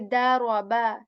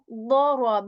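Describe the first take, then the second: First: It begins with a light, plain d sound. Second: It begins with a heavy, full-mouthed d sound. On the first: The speaker calls it wrong. "say daraba, daraba, that will be wrong" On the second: The speaker calls it right. "I'm saying ضرب"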